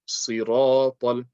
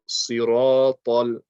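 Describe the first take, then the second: The two takes are said the same way.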